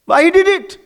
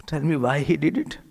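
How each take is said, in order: First: Much louder, higher Why he did it; loud high demanding Why he did it; loud question. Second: Said in the usual way. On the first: Shown as a demonstration. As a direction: fire the question at the audience.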